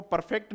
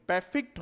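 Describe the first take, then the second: First: परफेक्ट said as "par-FEKT" with a sounded r; wrong pronunciation demo. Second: परफेक्ट said as "PE-fikt", no r; correct pronunciation. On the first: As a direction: show the mistaken "parfekt" for परफेक्ट. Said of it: "इसको परफेक्ट नहीं बोलेंगे". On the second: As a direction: model "pefikt" for परफेक्ट. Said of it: "होता है इसका transcription". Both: Shown as a demonstration.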